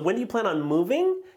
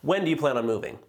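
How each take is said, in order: First: The pitch rises at the end of the question. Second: The pitch falls at the end of the question.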